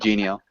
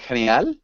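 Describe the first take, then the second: First: The word is pronounced as in English. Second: The word is pronounced as in Spanish. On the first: The speaker calls it right. "instead of genial" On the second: The speaker calls it wrong. "I was just thinking in Spanish. I was like genial"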